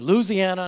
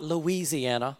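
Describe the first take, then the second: First: The word is said quickly with syllables run together. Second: The word is said carefully with every syllable clear. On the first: This is how locals say it. The speaker calls it right. "you do not enunciate that word" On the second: This is how outsiders say it. The speaker calls it wrong.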